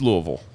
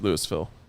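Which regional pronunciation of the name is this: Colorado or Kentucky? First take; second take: Kentucky; Colorado. First: The name is said the Kentucky way. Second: The name is said the Colorado way. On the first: This refers to the city in Kentucky. "Kentucky, it's Louisville" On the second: This refers to the town in Colorado. "The Colorado Louisville is pronounced Louisville"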